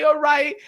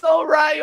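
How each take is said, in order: First: Sarcastic repeat, eased off; mock echo. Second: A louder, stressed mock "All right"; sarcastic mocking All right; mock shout. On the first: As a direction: let the second "all right" fall back, still mocking. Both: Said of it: "be like".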